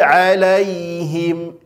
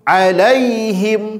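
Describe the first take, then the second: First: The ya sound is soft and light. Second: The ya sound is pressed hard and stressed. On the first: The speaker calls it right. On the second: The speaker calls it wrong. "itu tidak boleh"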